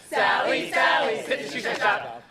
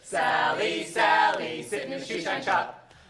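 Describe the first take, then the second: First: It is said at the fastest pace. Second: It is said a little faster.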